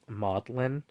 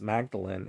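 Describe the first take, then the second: First: The name is said in a shortened 'Maudlin' form. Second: The name is said in its full standard form.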